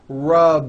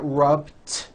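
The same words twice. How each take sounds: First: The word ends with a voiced D sound. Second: The word ends with a voiceless T sound. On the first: The speaker calls it right. "a voiced D sound at the end" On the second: The speaker calls it wrong. "It's not rubbed with an unvoiced T"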